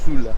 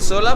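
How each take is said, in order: First: The first vowel sounds like a 'u'. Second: The first vowel sounds like an 'o'. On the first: The speaker calls it right. "la O se pronuncia como U y al parecer le dicen Sula" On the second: The speaker calls it wrong. "Vamos a decir Sola, pero no se pronuncia así"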